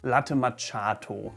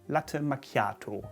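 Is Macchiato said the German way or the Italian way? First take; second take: German; Italian. First: It is said with a German-style pronunciation. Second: It is said with an Italian-style pronunciation. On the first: The speaker calls it wrong. "which to some German ears might sound correct, but it's of course not" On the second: The speaker calls it right. "if you want to sound correctly"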